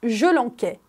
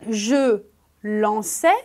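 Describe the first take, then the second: First: The verb's middle consonant is a hard k sound. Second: The verb's middle consonant is a soft s sound. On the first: The speaker calls it wrong. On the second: The speaker calls it right.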